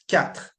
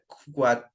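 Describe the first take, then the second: First: It begins with a plain k sound. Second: It begins with a kw sound, like quoi. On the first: The speaker calls it right. "It's quatre" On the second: The speaker calls it wrong. "don't pronounce them like quoi"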